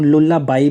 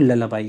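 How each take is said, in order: First: The first vowel is a full 'oo' sound. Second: The first vowel is a short 'uh' sound. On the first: The speaker calls it wrong. "कुछ लोग लुल्लाबाई भी बोल देते हैं" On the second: The speaker calls it right. "इसका जो सही pronunciation है वो ललाबाई है"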